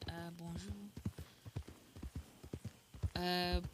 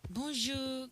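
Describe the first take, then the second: First: Tentative French greeting. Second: Put-on bonjour lifted higher in a French accent. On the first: Acted. Testing Seraphine's French voice, a quiet first bonjour. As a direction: try the French accent, barely voiced. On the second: Second try at Seraphine, higher French bonjour. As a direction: find Seraphine's pitch on the retake. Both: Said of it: "Can I still do Seraphine's voice?".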